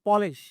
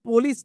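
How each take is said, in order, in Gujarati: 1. શબ્દનો અંત 'sh' અવાજથી થાય છે. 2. શબ્દનો અંત 's' અવાજથી થાય છે. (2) "પોલીસ નહીં"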